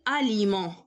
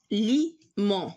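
First: Said in the usual way. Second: اليمون split slowly into a, li, mon; slow اليمون with gaps between syllables; slow dictation. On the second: Shown as a demonstration. Teacher sounds out word while writing.

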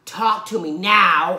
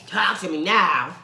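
First: Slower, louder "Talk to me now". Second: Slow deliberate delivery; slow drawn line. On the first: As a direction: stretch and push "now" louder. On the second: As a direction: draw "Talk to me now" out slowly. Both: Pretend. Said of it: "this makes me wanna do".

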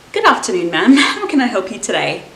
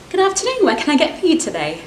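First: Flat, falling "good afternoon" after fumbling; tired barista finally getting the greeting right, flat; weary barista greeting. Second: High, bright sing-song "Good afternoon" rising at the end; eager barista cheerfully welcoming a customer, high and rising; chirpy barista greeting. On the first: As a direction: greet with zero energy. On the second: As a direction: greet the customer like the best day ever. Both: Acted. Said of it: "Expectations versus reality".

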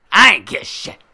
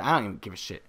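First: High, very loud mock bravado; defiant shout. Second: Said in the usual way. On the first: Player done caring about the flare, defiant shout. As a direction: belt it out as if fed up. Shouted repeat of previous line.

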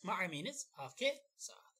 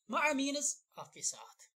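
First: Whisper. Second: Loud emphatic. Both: Shown as a demonstration.

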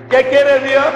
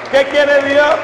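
The two takes are said the same way.

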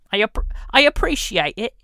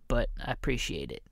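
First: Higher, louder mock British accent on "I appreciate it". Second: Said in the usual way. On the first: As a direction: ham up a British accent, pitched well up. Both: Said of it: "make a lot of fun about the British and the accents".

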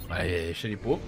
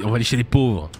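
First: Lower, softer repeat to himself; softer, lower throwaway; quiet aside. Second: Said in the usual way. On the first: Real, not acted. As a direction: drop it under your breath as a joke.

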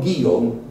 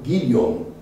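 First: Guillaume with a silent l, gee-YOM; standard French pronunciation. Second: Guillaume with the l sounded, GEEL-yom; grandfather's patois pronunciation. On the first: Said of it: "Not Guillaume". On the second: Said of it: "my grandfather's pronunciation of Guillaume". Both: Shown as a demonstration.

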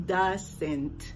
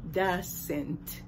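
Both takes have the same delivery.

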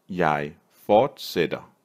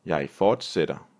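First: Slow, with a gap between "Jeg" and "fortsætter"; slow teaching take. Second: Said in the usual way. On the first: Shown as a demonstration. Teacher modelling a Danish verb for learners, slowly word by word.

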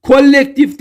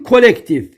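First: Kolektif with a long, doubled L; wrong double L. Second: Kolektif with a short, single L. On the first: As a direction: hold the L of Kolektif: "kol-lektif". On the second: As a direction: keep the L of kolektif brief. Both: Shown as a demonstration. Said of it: "Tek L ile".

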